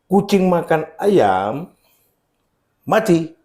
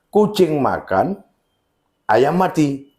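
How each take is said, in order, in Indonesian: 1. Ada jeda sebelum kata mati. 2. Ada jeda setelah kata makan. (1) "Kucingnya mati" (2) "si kucing sedang makan, si ayam juga mati di sana"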